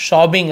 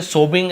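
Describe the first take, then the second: First: "sobbing" with a short, open O; correct pronunciation. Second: "sobbing" with a long closed O, like "sobe-ing"; wrong pronunciation. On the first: Teacher modelling "sobbing" for students, open O sound. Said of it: "sobbing ऐसे बोले". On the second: Teacher showing students the mistake in "sobbing", mispronounced with a long O. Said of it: "ऐसे sobbing ऐसे नहीं". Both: Shown as a demonstration.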